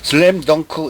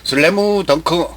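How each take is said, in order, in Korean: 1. slam은 모음을 붙이지 않고 m으로 끝납니다. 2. slam에 모음이 하나 더 붙습니다. 예: slamu. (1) "이걸 못해가지고" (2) "일본식 발음이에요"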